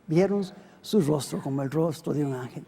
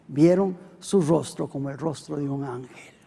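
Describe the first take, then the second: No difference in how they are said.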